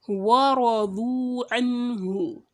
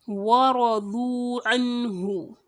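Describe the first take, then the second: No difference in how they are said.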